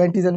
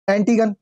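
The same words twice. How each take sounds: First: एंटीगन said with z for g, "an-ti-zan"; the variant of एंटीगन some people use, "antizan"; alternative z pronunciation. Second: एंटीगन with a hard g, "an-ti-gan"; hard g variant. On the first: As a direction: turn the ग of एंटीगन into a z sound. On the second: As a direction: say एंटीगन with a g as in "gun". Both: Shown as a demonstration. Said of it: "कुछ लोग एंटीगन भी बोलते हैं".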